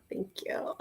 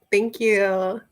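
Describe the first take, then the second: First: Whispered thanks. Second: Said in the usual way. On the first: Real, not acted. Thanking the chat again in a whisper. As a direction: Thank you whispered, much softer.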